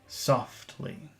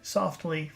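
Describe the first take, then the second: First: The word is said with strong, lengthened emphasis. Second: The word is said plainly without extra emphasis. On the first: "Focus softly" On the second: "Regular softly"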